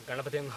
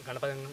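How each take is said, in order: Both takes have the same delivery.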